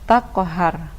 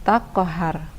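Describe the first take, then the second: The two takes are said the same way.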